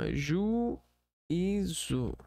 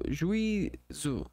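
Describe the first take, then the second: First: The u and i are split into two syllables. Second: The u and i are joined in one syllable. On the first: The speaker calls it right. "Não, é juízo. Ju, ju, e, zo" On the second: The speaker calls it wrong. "tenta fazer juízo"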